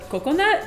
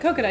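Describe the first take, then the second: First: It is said with a Mexican Spanish accent. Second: It is said with a plain American accent. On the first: "Yayo's accent comes back if he's traveled to Mexico" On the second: "Instead of him going coconut"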